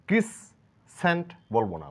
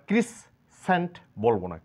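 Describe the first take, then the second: The two takes are said the same way.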